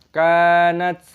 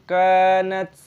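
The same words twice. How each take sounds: No difference in how they are said.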